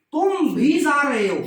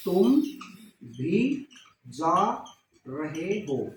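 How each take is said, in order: First: Whole sentence said louder and higher, with weight on भी; louder example sentence. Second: Word by word. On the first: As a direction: say तुम भी जा रहे हो as one strong line. (पूरा वाक्य ज़ोर से, भी पर बल) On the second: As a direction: spell the sentence out one word at a time. (एक एक शब्द अलग करके, धीरे धीरे नीचे) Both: Shown as a demonstration. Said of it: "तो इसमें निपात बताओ".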